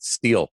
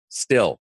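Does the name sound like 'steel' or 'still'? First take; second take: steel; still. First: The vowel is long, like in 'steel'. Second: The vowel is short, like in 'still'. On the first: The speaker calls it right. "remember to call it Steel" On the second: The speaker calls it wrong. "he was calling it Still"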